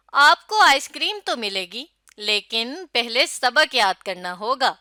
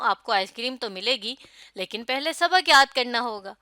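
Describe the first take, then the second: First: Lively promise, firm condition; expressive coaxing. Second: Put-on telling a child. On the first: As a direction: coax a child with a treat, then be firm. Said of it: "اچھے انداز سے اس جملے کو پڑھا". (بچے کو پیار سے سمجھانا) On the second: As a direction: speak to a child about homework. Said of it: "پتہ چل رہا ہے کہ میں کسی کو کہہ رہی ہوں". (بچے سے بات کرتے ہوئے) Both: Shown as a demonstration.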